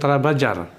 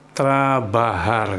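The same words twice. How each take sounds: First: The j is sounded like a j. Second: The j is sounded like an h. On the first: The speaker calls it wrong. "bukan trabajar" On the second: The speaker calls it right. "ini diucapkannya trabajar ya"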